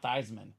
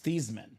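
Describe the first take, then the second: First: The name rhymes with Heisman. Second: The name does not rhyme with Heisman. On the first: This is the pronunciation adopted later. "their last name is not Theismann" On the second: This is the original family pronunciation. "It's Theismann"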